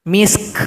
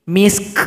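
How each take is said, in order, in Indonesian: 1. Kata ini diakhiri dengan k berhembus, beraspirasi. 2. Kata ini diakhiri dengan k berhembus, beraspirasi.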